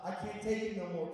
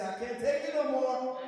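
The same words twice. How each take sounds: First: Said in the usual way. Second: "I can't take it no more" cried out loud and much higher; shouted call for the congregation. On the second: Shown as a demonstration. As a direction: belt it out so the church repeats it. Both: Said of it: "Come on, somebody say".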